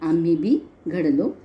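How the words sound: There is a pause after 'bi'. We too were shaped well. "मी बी नंतर विराम दिलेला आहे"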